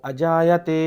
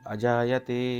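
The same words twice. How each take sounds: First: The word is said on a high pitch. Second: The word is said on a middle pitch. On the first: "high pitch" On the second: "স্বরিত স্বর, middle pitch"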